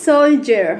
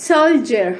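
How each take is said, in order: No difference in how they are said.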